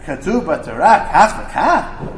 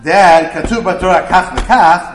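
First: It is said as a question, rising. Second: It is said as a flat statement, falling.

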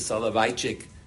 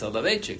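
First: The vowel sounds like the one in eye. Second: The vowel sounds like the one in day. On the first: "if you pronounce it Soloveitchik, I, then you put two yuds" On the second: "If you put one yud, then it's Soloveitchik"

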